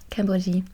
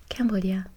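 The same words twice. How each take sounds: First: French "Cambodia" ending in a zhee sound; French accent on the country name; French pronunciation. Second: English Cambodia ending in "dia"; English-accented "Cambodia", ending dee-uh; English pronunciation. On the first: French take after English one. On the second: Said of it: "English with a French accent". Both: Shown as a demonstration.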